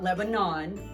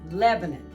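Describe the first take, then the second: First: It is said like the Middle East country. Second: It is said the local Tennessee way. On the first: It names the country in the Middle East. The speaker calls it wrong. "not Lebanon, like the Middle East" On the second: It names the town in Tennessee. The speaker calls it right. "That's how we pronounce it"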